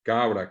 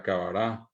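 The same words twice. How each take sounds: First: "cabra" as CA-bra, two syllables; Spanish stress. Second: "cabará" in three syllables, last stressed; Guaraní final stress. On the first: Teacher giving another example, first-syllable stress. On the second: Teacher giving the Guaraní form, final stress. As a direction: land on RÁ in "cabará". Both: Shown as a demonstration. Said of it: "ponerles otros ejemplos".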